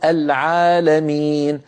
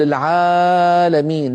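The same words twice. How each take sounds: First: The long vowel is held its normal length. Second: The long vowel is drawn out overly long. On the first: The speaker calls it right. "لابد أن نقول العالمين" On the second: The speaker calls it wrong. "لا يصح أن نقول العالمين"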